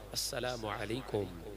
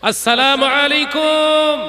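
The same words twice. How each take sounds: First: It is said at a normal volume. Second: It is said in a louder voice.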